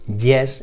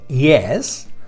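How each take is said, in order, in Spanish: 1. Empieza con un sonido de Y dura, al estilo español. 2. Empieza con un sonido suave de deslizamiento, parecido a "ee". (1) "las solemos pronunciar como Y en español" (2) "se pronuncia yes"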